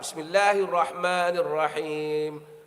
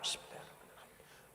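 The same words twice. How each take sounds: First: It is said loudly. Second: It is said quietly.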